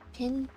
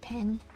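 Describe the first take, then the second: First: The vowel sounds like the vowel in 'pin'. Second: The vowel sounds like the vowel in 'pen'. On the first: The speaker calls it wrong. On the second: The speaker calls it right.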